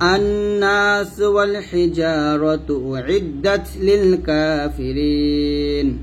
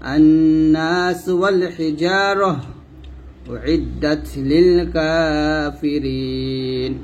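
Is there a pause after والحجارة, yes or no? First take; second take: no; yes. First: It is read straight through without a pause. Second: There is a pause after والحجارة. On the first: "মিলে পড়তে বলছে" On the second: "এখানে আমি থামতে পারবো"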